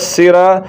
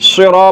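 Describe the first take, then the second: First: The s sound is thin and light. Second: The s sound is heavy and full. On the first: The speaker calls it wrong. "تو اب یہ سین پڑھا جا رہا ہے جو کہ غلط ہے" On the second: The speaker calls it right. "یہ صاد ہے، سرا پڑھنا ہے"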